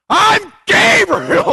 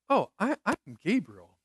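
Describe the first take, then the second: First: It is said in an indignant, incredulous tone. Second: It is said in a calm, plain tone. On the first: The messenger is offended at being doubted. The speaker calls it right. "I think he goes, ... Are you kidding me?" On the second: The messenger simply introduces himself. The speaker calls it wrong. "That could be the tone. I don't think that's the tone"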